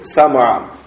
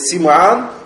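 First: The first vowel of the name is 'a'. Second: The first vowel of the name is 'i'. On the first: "можно с фатхой син" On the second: "можно с касрия"

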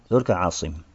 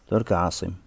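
The two takes are said the same way.

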